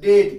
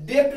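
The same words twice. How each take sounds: First: डेट said as "det", straight to the T; silent B. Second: डेट said as "dept", with a stop before the T; wrong reading, डेट with an extra lip sound before T; B pronounced. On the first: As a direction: drop the B from डेट, land on T. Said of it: "इसको पढ़ेंगे डेट". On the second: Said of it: "इसको डेट नहीं पढ़ेंगे". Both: Shown as a demonstration.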